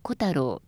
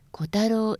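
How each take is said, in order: First: The accent falls on the first syllable. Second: The accent falls after the first syllable. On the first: The speaker calls it right. "初めにアクセントがきます" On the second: The speaker calls it wrong. "ではなく"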